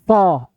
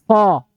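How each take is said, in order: Both takes have the same delivery.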